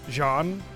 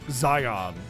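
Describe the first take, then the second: First: The word starts with a soft 'sh' sound. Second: The word starts with a buzzing 'z' sound. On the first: The speaker calls it right. "is actually Jean or Shan" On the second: The speaker calls it wrong. "and not Zion"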